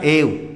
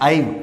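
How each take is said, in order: First: The vowel is a plain 'e' sound. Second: The vowel is an 'ai' diphthong sound. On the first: The speaker calls it right. "हमने उच्चारण किया एव" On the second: The speaker calls it wrong. "ना कि आइव"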